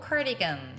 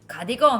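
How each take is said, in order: First: It is pronounced with English sounds. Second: It is pronounced with Korean loanword sounds. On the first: The speaker calls it right. "cardigan 하고 연습해 보세요" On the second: The speaker calls it wrong. "가디건 하지 말고"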